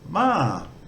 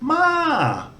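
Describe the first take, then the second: First: The syllable is said with a level mid tone. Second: The syllable is said with a high tone. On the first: It means come. "For come, just a mid tone" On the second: It means horse. "And horse has a, a high tone"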